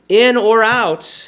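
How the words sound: It is said with a questioning tune.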